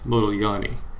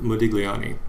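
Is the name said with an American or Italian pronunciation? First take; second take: Italian; American. First: The name is said with an Italian pronunciation. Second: The name is said with an American pronunciation. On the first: The speaker calls it right. "no, you're saying it all wrong. It's Modigliani" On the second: The speaker calls it wrong. "Most of the time you people hear, hear people pronounce it Modigliani"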